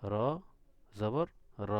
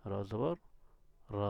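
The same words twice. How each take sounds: The two takes are said the same way.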